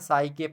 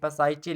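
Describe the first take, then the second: First: It starts with an s sound and ends 'ke'. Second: It starts with a p sound and ends 'che'. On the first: This is how the word is read. The speaker calls it right. "लेकिन इसको पढ़ते क्या है, साइके पढ़ते हैं" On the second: This is how the word is spelled. The speaker calls it wrong. "पसाइचे लिखा है"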